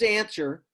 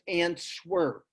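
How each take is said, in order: First: The word is said in its ordinary everyday way. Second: The word is said to sound out every letter.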